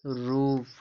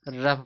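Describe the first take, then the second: First: The vowel sounds like a long 'oo'. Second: The vowel sounds like a short 'uh'. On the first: The speaker calls it right. "इसको रूफ पढ़ते हैं" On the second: The speaker calls it wrong. "बहुत लोग इसकी क्या पढ़ते हैं, इसको रफ पढ़ते हैं, जबकि रफ नहीं"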